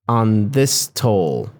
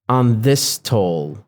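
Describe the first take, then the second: First: The two s sounds fuse into one. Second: The same.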